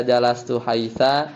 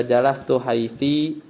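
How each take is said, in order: First: Jalastu haitsa with a final a; a ending. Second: Jalastu haitsi with a final i; i ending. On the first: Teacher showing a variant reading, haitsa ending in a. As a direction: end haitsa on an open a. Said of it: "kita bisa baca". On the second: Teacher showing a variant reading, haitsi ending in i. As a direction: end haitsi on an i vowel. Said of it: "bisa baca". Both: Shown as a demonstration.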